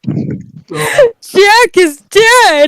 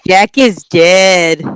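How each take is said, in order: First: It is said with strong, upset emotion. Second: It is said flatly, with no emotion.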